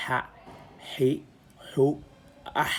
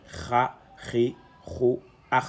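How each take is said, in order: First: "ha, hi, hu, ah" with an h sound, no kh rasp; undotted-letter ha sound. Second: "kha, ri, hu, ah" with a throaty kh in every syllable; dotted-letter kha sound. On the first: Teacher contrasting the letter without a dot, plain h sound. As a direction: demonstrate "ha, hi, hu, ah" one by one, keeping the h free of rasp. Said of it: "Mais ici, il n'y a pas de point".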